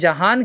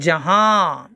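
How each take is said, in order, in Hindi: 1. अंतिम न की ध्वनि पूरी बोली जाती है। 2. अंतिम न नासिक्य स्वर में छिपी रहती है। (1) "नून अदा हो रहा है, उस नून का ऐलान हो रहा है" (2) "हम नून की आवाज़ को नाक में छुपाएंगे"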